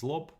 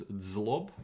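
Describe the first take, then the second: First: "zlob" with no d before the z; as pronounced. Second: "zlob" opening on a dz sound; as spelled. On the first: Teacher corrects the spelled form for viewers, "zlob" starting on plain z. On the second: Learner reads the old spelling to viewers, "zlob" as dzlob. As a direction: say "zlob" as written, with a d before the z. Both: Shown as a demonstration. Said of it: "pronounced as zlob".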